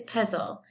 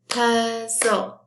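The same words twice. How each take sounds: First: Said in the usual way. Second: "puzzle" slowly split as puz-zle; clap-along "puzzle", syllable by syllable; broken into syllables. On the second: Shown as a demonstration. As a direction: say "puzzle" in two drawn-out beats, puz, zle. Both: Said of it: "The syllables are".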